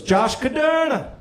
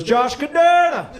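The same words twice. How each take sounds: First: Slow, high Jamaican lilt on "Josh Caderna"; upbeat Jamaican voice calling the name; Jamaican accent. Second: Slow, high and louder Jamaican "Josh Caderna", every syllable pressed; insistent Jamaican receptionist; emphatic Jamaican accent. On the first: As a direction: sing the name like the Jamaican receptionist. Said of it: "this positive Jamaican woman". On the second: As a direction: repeat the name with purpose in Jamaican lilt. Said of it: "she repeated it with purpose". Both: Retold or imitated.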